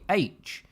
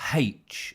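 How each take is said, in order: First: The letter name begins with a vowel sound. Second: The letter name begins with an h sound. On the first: The speaker calls it right. "A has an A sound at the beginning" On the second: The speaker calls it wrong. "It's not H, as some people say"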